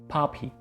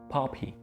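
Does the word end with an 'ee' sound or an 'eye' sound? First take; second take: ee; ee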